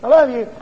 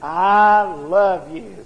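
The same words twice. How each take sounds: First: It is said quickly and without feeling. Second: It is said warmly and with feeling. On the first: The words are said out of habit. The speaker calls it wrong. "Don't just say it like I said it" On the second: The words are truly meant. The speaker calls it right. "Say it like you mean it"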